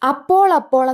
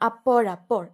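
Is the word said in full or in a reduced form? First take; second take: reduced; full. First: The middle zha sound is dropped, appol appol. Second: The middle zha sound is said, appozhappol. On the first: This is how it is usually spoken. "എന്നാണ് നമ്മൾ പറയാറുള്ളതെങ്കിലും" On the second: This is how it is written. "എഴുതുന്നത് അപ്പോഴപ്പോൾ, ഴായാണ്"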